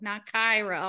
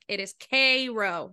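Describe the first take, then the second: First: The name is said in its usual pronunciation. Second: The name is said in its local pronunciation. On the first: This is how the spelling suggests it is said. The speaker calls it wrong. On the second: This is how the town's people say it. The speaker calls it right.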